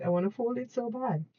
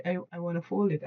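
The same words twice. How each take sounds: First: Higher, eager impatient plea; impatient whine. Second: Said in the usual way. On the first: Real, not acted. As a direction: beg to get on with the folding. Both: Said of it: "I'm feeling very impatient".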